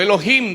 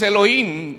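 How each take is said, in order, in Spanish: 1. Se dice con pronunciación hebrea. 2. Se dice con pronunciación española.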